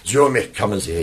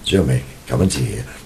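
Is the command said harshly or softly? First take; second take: harshly; softly. First: The command is said sharply and precisely. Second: The command is said in a softened way. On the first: It suits a dog that likes precise commands. "instead of saying" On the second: It suits a castrated dog. "If they've been castrated, then you soften it"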